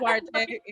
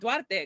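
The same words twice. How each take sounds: First: The name is said with English sounds. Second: The name is said with Spanish sounds. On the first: The speaker calls it wrong. "That that's the that's the English way to say it" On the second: The speaker calls it right. "in my head I would say Duarte because you know that that's how it is"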